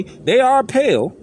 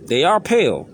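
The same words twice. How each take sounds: First: "are" stretched, higher and louder, slow; stress on are. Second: Said in the usual way. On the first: Shown as a demonstration. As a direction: lean hard on "are" and draw it out.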